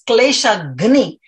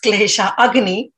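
First: The second word is pronounced 'ghni', with no vowel before it. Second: The second word is pronounced 'agni', with a vowel before 'gni'. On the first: Devotion destroys the troubles. The speaker calls it right. "but rather it's klesha agni. Agni means to destroy" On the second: Devotion sets fire to the troubles. The speaker calls it wrong. "People normally say it's klesha agni"

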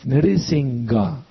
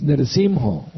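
First: The nasal is followed by a g sound. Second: The nasal is followed by an h sound. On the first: The speaker calls it wrong. "It's not a G" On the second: The speaker calls it right. "It's an H"

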